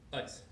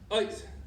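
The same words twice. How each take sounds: First: It is said softly, just spoken. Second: It is said forcefully, in a confident volume.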